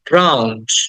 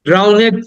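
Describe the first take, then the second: First: The ending is shortened into one syllable. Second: The ending is said as an extra syllable. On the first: The speaker calls it right. "ইডির উচ্চারণটা সংক্ষিপ্ত করে" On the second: The speaker calls it wrong. "ড্রাউনেড না"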